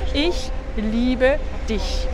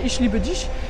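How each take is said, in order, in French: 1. Le 'ch' est un sifflement doux et aigu. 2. Le 'ch' se prononce comme le 'sh' anglais. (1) "si tu veux prononcer correctement, c'est ich liebe dich" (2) "dialecte à Berlin ou certains turcs allemands prononcent un peu comme ça"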